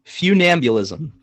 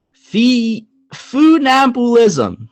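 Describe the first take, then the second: First: "Funambulism" said slowly as fyoo-NAM-byuh-lism; real pronunciation. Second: "funambulism" sounded out slowly and high, foo-NAM-boo-lism; guessed pronunciation. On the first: Host repeating the phone's version, "Funambulism" as fyoo-NAM-byuh-lism. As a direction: echo "Funambulism" carefully with yoo sounds. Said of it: "here's how it's really pronounced". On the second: Host guessing the word before hearing it, "funambulism" as foo-NAM-boo-lism. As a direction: have a drawn-out, higher stab at "funambulism" with oo vowels. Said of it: "That's how I'm gonna guess it".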